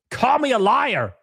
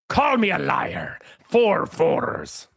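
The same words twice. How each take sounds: First: Said in the usual way. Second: Slow whispered movie quote. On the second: Shown as a demonstration. Streamer whispering a film quote to his chat. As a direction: hush it like a secret line. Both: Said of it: "Does anybody get the reference".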